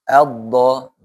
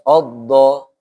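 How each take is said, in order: First: The first vowel is an a sound. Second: The first vowel is an o sound. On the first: The speaker calls it right. "tapi a dulu ya" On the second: The speaker calls it wrong. "jangan oddo"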